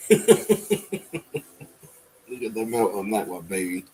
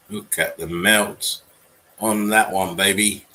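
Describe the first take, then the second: First: Laughing. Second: Slow, louder, savouring each word; relishing it. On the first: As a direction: repeat it through a real laugh. Repeats line while laughing. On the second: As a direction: stretch it out like a showman gloating. Marvelling at melted building. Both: Real, not acted.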